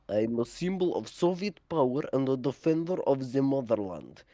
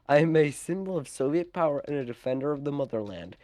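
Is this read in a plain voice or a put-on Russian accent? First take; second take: Russian accent; plain. First: It is read in an exaggerated Russian accent. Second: It is read in the speaker's ordinary accent.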